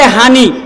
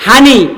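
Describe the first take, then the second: First: "হানি" with h for p; নোয়াখালীর টানে "হানি"; Noakhali dialect p as h. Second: "হানি" breathy h replacing p; নোয়াখালীর টানে "হানি"; Noakhali dialect p as h. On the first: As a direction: say "হানি", p turned to h. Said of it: "প কে হ উচ্চারণ করে". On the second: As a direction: answer "হানি" with h for p. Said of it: "পানিকে কি কয়?". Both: Shown as a demonstration.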